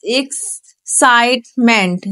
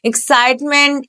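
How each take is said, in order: First: Slow syllable demo. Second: Said in the usual way. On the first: Shown as a demonstration. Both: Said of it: "ए x".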